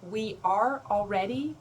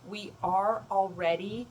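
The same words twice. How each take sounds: The two takes are said the same way.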